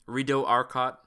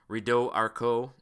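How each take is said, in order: First: The name is said with an English pronunciation. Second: The name is said with a French pronunciation. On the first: This is how local people usually say it. The speaker calls it wrong. "I know that's French and I pronounced it wrong" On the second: This is the original pronunciation. The speaker calls it right. "is how it's supposed to be pronounced"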